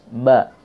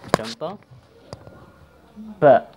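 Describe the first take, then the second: First: The b is released with no puff of breath. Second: The b is released with a puff of breath. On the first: The speaker calls it right. "kalau sudah nggak bergerak, insya Allah betul ya" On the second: The speaker calls it wrong. "masih ada nafas yang memantul atau yang keluar seperti ini"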